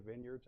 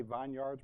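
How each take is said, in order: First: Said in the usual way. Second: "vineyards" said as VINE-YARDS, both parts full; pronounced as spelled. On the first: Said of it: "but we say vineyards". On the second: Shown as a demonstration. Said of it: "Isn't it a vine and yards?".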